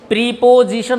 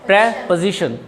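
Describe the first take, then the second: First: The first syllable has a long 'ee' vowel. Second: The first syllable has a short 'eh' vowel. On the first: The speaker calls it wrong. "प्री नहीं होता" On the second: The speaker calls it right. "प्रे हो गया"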